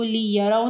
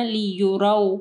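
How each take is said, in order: First: लियरौ with "ya" in the middle; लियरौ, open a after y; wrong vowel demo. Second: लियुरौ with "yu", not "ya"; लियुरौ, the middle vowel a rounded u; correct vowel. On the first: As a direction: say "li-ya-rau" for लियरौ. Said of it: "लियरौ नहीं पढ़ना". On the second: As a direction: say "li-yu-rau" for लियुरौ. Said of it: "इसको लियरौ नहीं पढ़ना". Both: Shown as a demonstration.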